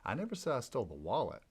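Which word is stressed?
wallet. The stress is on "wallet".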